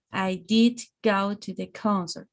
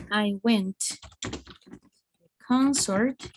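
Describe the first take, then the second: First: DID given full weight before "go"; emphatic DID. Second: Said in the usual way. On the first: Shown as a demonstration. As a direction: insist on "did" in a measured statement. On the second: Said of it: "it is a normal sentence".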